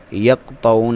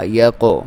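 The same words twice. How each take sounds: First: "یقطعون" with the q cut dead; wrong, no qalqalah. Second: "یقو" with an echoed, louder qaf; correct qalqalah. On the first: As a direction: run q straight into t in "یقطعون", no bounce. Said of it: "یقطعون نہیں پڑھنا". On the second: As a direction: bounce off the q in "یقو". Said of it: "قلقلہ کرنا ہے". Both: Shown as a demonstration.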